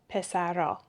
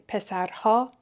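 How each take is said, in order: First: The h sound in the ending is dropped. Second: The h sound in the ending is pronounced.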